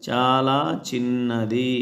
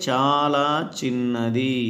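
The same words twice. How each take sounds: Both takes have the same delivery.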